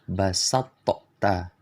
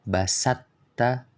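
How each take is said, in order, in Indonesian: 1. Huruf t dilepaskan dengan pantulan yang bergema. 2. Bunyi emfatik melebur sepenuhnya, tanpa bekas sama sekali. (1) "mengkolkolahkan huruf to. Cara baca yang salah" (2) "cara bacanya yang salah"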